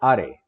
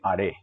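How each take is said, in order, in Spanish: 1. El acento está en la primera sílaba. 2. El acento está en la segunda sílaba. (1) "No son core, sore, are" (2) "se acentúan en la segunda sílaba"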